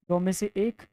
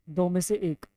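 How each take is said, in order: The two takes are said the same way.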